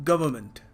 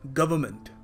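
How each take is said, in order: No difference in how they are said.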